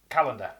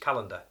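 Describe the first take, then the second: First: Said slowly with each vowel clearly pronounced. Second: Said quickly with the middle vowels reduced. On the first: "if you pronounce it properly" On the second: "if you just say it in normal fast speech"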